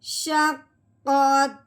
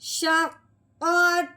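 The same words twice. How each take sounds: First: The pitch drops down at the word's end. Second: The pitch stays level at the word's end. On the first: The reading stops at this point. "सिर्फ़ हमने अपना लहज़ा नीचे को लेके आना है" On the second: The reading continues without a stop. "पहले हमने पढ़ा था"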